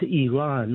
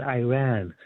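First: Iran said as ee-RAHN; native pronunciation. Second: Iran said as eye-RAN; mispronunciation. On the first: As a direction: say Iran with an EE start and long AH. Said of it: "it's pronounced". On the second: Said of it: "not Iran". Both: Shown as a demonstration.

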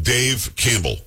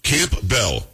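First: Campbell run together as "Camble"; usual pronunciation. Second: Campbell split into Camp Bell; reporter's pronunciation. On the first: Shown as a demonstration. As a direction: say Campbell with silent P, very slowly. Demonstrating the usual name pronunciation. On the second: Retold or imitated. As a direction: say Camp Bell as two words, P sounded. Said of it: "what was she saying".

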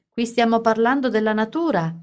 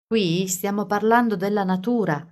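First: Yelling. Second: Said in the usual way. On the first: A narrator's reading. Carly yelling Alice's words at Edward. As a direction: throw the phrase at the boy. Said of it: "si mise a urlare a Edward".

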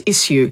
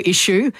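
First: "issue" as "iss-yoo", with S; spelling pronunciation. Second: "issue" with sh, as "ishoo"; old sh pronunciation. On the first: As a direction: say "issue" as written, S plus yoo. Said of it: "affected by the written word". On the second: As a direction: say "issue" with a sh sound. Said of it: "it was pronounced that way back then". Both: Shown as a demonstration.

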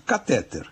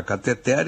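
First: Catéter stressed on TÉ, the middle syllable; accented form catéter, ca-TÉ-ter. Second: Cateter stressed on final TER; unaccented form cateter, ca-te-TER; stress on final syllable. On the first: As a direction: punch the second syllable of catéter. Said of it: "com acento agudo no E". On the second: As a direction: put the beat of cateter at the very end. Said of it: "forma cateter sem acento". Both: Shown as a demonstration.

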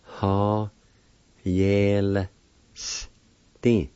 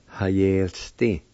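First: Drawn-out syllables "Ha, yel, sti", pauses between; "Ha... yel... sti", each part held separately; broken into syllables. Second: Said in the usual way. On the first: Shown as a demonstration. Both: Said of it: "like this".

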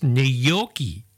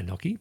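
First: Gnocchi as nee-YOK-ee, deliberately; proper pronunciation. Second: Gnocchi as NOK-ee; own usual mispronunciation. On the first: Host giving the proper way, gnocchi as nee-YOK-ee. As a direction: say gnocchi slowly with a ny sound. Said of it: "proper way is gnocchi". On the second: Host admitting their own version, gnocchi as NOK-ee. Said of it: "I say gnocchi". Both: Shown as a demonstration.

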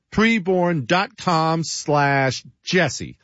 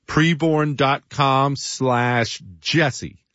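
First: "Preborn dot com slash Jesse" slow again, a touch higher; slow, slightly lifted URL read; slow URL repeat. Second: "Preborn dot com slash Jesse" read slowly, each word set apart; slow, deliberate URL read; slow, spelled-out web address. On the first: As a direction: repeat the address slowly so it sticks. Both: Shown as a demonstration.

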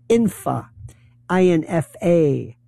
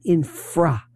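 First: "infa" said without the r, then spelled out I N F A; mispronounced infrastructure. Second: "infra" said slowly with the r in place; correct pronunciation. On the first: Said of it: "or as people say". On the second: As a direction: say "infra" clearly, keeping the r. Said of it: "not infra". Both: Shown as a demonstration.

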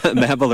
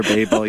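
First: Babel said as "BAB-ul"; short-a pronunciation. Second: Babel said as "BAY-bul"; long-a pronunciation. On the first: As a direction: give Babel the short a of "rabble". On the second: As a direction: give Babel the long a of "table". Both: Shown as a demonstration. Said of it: "either way".

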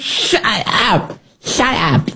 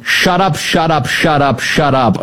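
First: High, drawn-out mocking impression; Nancy Pelosi. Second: Hammed-up repeated yell, pitched up and falling; mock yelling. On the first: Host parodying upset congresswoman, high mock voice. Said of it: "Nancy Pelosi's version of that". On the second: Host mimicking congressman told about racism, mock yelling. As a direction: rattle it off as an imitation yell. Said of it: "Al Green just starts yelling".

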